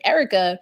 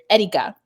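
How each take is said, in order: First: The name is said with an American pronunciation. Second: The name is said with a non-American pronunciation. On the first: This is how most people say it. "an Americanized version of my name" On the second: This is how the family says it. "when I'm with my family, I hear"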